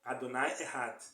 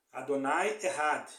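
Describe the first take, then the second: First: "Adonai Ehad" repeated quieter, ADONAI stressed; Hebrew phrase repeated softer. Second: "Adonai Ehad" with stress on ADONAI, falling; Hebrew phrase. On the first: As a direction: echo "Adonai Ehad" softly. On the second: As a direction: intone "Adonai Ehad" clearly. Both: Shown as a demonstration. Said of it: "em hebraico".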